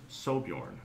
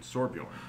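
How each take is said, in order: First: The first syllable has no R sound. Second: The first syllable has an R sound. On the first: "or just Sobjorn. I don't think there's an R in there" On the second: "S O R B J O R N"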